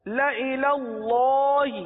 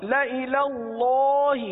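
No difference in how they are said.

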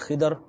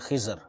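First: The consonant before the final r sounds like d. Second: The consonant before the final r sounds like z. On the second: This is how speakers under Indian influence say it. "those who have more Indian influence, they'll say Khizr"

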